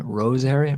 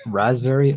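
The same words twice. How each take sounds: First: Roseberry, with "rose" in place of "rasp"; tipsy mispronunciation. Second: Said in the usual way. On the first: Real, not acted. Tipsy host fumbling a flavor, "Roseberry" starting with a long o. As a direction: slip up and say "Roseberry", first syllable like rose. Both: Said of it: "I couldn't even say it properly".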